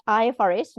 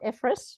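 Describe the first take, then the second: First: "I F R S" said letter by letter; spelt-out acronym. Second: "ifrs" said as one two-syllable word; acronym as word. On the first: Correcting how the standard is named, "I F R S" letter by letter. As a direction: spell out "I F R S" as four separate letters. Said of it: "not ifrs". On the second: Showing the mistaken name, "ifrs" as one word. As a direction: say "ifrs" like a word, rather than as letters. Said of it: "It's I F R S, not ifrs". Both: Shown as a demonstration.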